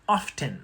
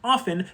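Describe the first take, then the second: First: The T is pronounced. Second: The T is silent. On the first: "started reintroducing the T back into the word" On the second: "originally pronounced often"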